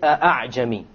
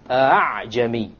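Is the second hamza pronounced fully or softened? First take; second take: full; softened. First: The second hamza is a full glottal stop. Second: The second hamza is softened, between hamza and alif. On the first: The speaker calls it wrong. "you don't pronounce it as a hamza. You don't say" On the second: The speaker calls it right. "You don't pronounce it a full hamza, and you don't pronounce it as an alif, full alif. It is in between"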